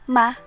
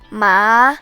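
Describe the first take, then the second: First: It is quick and light, with no pitch. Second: The pitch rises moderately. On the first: "pronounced quickly and lightly without pitch" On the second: "The second tone rises moderately"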